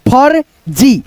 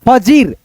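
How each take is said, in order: First: A half r sound comes before the j. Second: The r sound comes after the j. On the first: The speaker calls it right. "उसके बाद से र बोल दो" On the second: The speaker calls it wrong. "तो उच्चारण गलत हो जाएगा"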